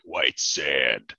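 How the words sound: The title is said in a grand, dramatic voice. The speaker calls it right.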